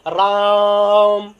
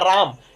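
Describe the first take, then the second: First: The vowel is drawn out about three times longer. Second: The vowel is said at normal length. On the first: The speaker calls it right. "इस तरीके से पढ़ा जाएगा" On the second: The speaker calls it wrong. "इसे ऐसे नहीं पढ़ा जाएगा"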